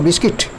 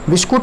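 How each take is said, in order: First: The last syllable sounds like 'kit'. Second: The last syllable sounds like 'kut'. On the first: The speaker calls it right. "कुट नहीं, किट" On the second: The speaker calls it wrong. "बिस्कुट नहीं"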